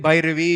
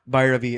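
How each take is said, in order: First: The name is pronounced carefully and precisely. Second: The name is pronounced loosely and sloppily. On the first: This is how someone who was taught says it. The speaker calls it right. "I can say Bhairavi" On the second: This is how a child who was never taught says it. The speaker calls it wrong. "that's how I used to speak as a child"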